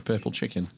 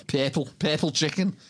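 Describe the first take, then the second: First: Said in the usual way. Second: "purple chicken" in Scouse, purple as "pair-pull"; Liverpudlian accent. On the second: Shown as a demonstration. Showing how you spot a Scouser, Liverpudlian "purple chicken". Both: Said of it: "just the two words in the Liverpudlian accent".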